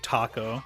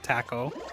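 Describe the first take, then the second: First: The word is said with a non-British pronunciation. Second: The word is said with a British pronunciation. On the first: The speaker calls it right. "They almost never say taco" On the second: The speaker calls it wrong. "They say taco"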